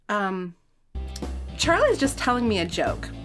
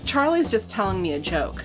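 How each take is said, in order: First: It is read in a put-on character voice. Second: It is read in the reader's normal voice. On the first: The speaker calls it right. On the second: The speaker calls it wrong.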